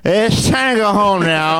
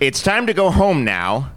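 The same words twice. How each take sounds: First: It sounds drunk and sloppy. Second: It sounds sincere and tender.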